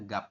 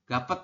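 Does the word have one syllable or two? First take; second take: one; two. First: The word ends in a single closed syllable. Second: The final consonant is voiced as an extra syllable. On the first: The speaker calls it right. "hanya membaca gap seperti ini" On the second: The speaker calls it wrong. "Anda membacanya bukan gapet"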